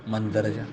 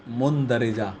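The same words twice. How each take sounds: First: مندرجہ as "mandarja", a in the first syllable; school pronunciation. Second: مندرجہ as "mundarija", u first and i after r; original pronunciation. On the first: Teacher quoting what they read at school, school pronunciation. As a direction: say مندرجہ quickly as "man-dar-ja". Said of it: "school میں کیا پڑھتے ہیں". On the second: Teacher showing how the word is written, original pronunciation. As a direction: sound out مندرجہ slowly as "mun-da-ri-ja". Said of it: "اصل وہ لفظ ہے". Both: Shown as a demonstration.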